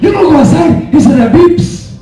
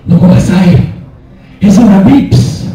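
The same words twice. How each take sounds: First: Higher, louder Mexican accent, hammed-up panic; telenovela shout. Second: Put-on louder, dramatic Mexican accent like a soap opera; dad bursting in, hammed-up telenovela panic. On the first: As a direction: shout the warning like a soap opera dad in a Mexican accent. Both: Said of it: "Like a telenovela".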